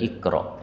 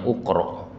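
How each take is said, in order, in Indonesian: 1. Kata ini diawali vokal 'i'. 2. Kata ini diawali vokal 'u'. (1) "padahal aslinya adalah ikro" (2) "kalau nggak ngerti bacanya ukro"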